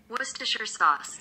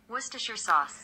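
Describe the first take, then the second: Both takes have the same delivery.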